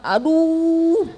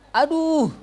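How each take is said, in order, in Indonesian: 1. Vokal u diucapkan dengan bibir yang dimonyongkan sangat maju. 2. Vokal u diucapkan dengan pembulatan bibir yang biasa saja. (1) "monyongnya berapa sepuluh senti misalkan"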